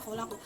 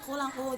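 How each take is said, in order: First: The word ends on a bouncing final consonant. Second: The word ends with a full vowel ending.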